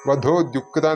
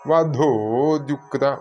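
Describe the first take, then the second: First: The final vowel of vadho is kept short. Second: The final vowel of vadho is held long. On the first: The speaker calls it wrong. "അല്ലെങ്കിൽ വധോ ദ്യുക്ത എന്നായി പോകും" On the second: The speaker calls it right. "വധോ ദ്യുക്ത എന്ന് വരണം"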